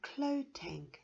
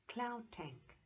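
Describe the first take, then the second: First: The first word ends without a D sound. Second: The first word ends with a D sound. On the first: "it's pronounced as Clo Tank" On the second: "I would have pronounced that Cloud Tank"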